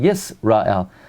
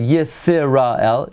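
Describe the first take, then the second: First: No vowel is sounded after the s. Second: A short vowel is sounded after the s. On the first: The speaker calls it right. "it's sort of silent. We don't pronounce it" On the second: The speaker calls it wrong. "we don't say Yisrael"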